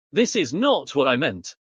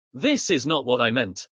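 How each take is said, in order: First: Not pressed hard and lifted; stress on not. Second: Said in the usual way. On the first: Shown as a demonstration. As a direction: hit the word not. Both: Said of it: "I can also emphasize words".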